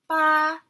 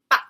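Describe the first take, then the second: First: The syllable is said in the first tone. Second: The syllable is said in the fourth tone. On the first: "So first tone" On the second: "Fourth tone"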